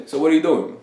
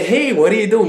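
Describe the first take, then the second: First: Casual, unbothered question; offhand, level delivery; blasé. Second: Higher, over-friendly question; perky wrong-way demo; mock eager. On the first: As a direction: toss it out as if barely interested. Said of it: "Like, in a very blasé". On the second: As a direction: ask it too brightly, pitched way up. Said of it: "like, like, you know, say". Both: Shown as a demonstration.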